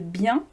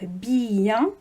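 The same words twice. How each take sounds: First: The vowels are joined in one syllable. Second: The vowels are split into two syllables. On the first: "au lieu de bien" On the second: "on peut dire bien"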